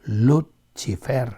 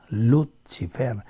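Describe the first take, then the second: Both takes have the same delivery.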